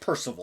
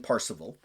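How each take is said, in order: First: The name is said as Percival. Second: The name is said as Parzival. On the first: "sometimes pronounced Percival" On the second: "more of the old school pronunciation"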